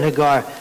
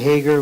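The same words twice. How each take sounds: First: The stress is on the last syllable. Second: The stress is on the first syllable. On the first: The speaker calls it right. "in Hebrew usually the emphasis is on the last syllable" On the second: The speaker calls it wrong. "many times people say Hagar"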